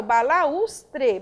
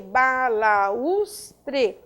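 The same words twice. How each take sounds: First: "balaustre" as one slow, clear word; measured teaching "balaustre"; careful pronunciation. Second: "balaustre" split as ba - la - us - tre; slow, separate beats on ba, la, us, tre; syllable by syllable. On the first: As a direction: say "balaustre" whole, carefully for learners. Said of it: "eu tenho us também". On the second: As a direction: pause between each syllable of "balaustre". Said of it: "constituindo uma sílaba". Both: Shown as a demonstration.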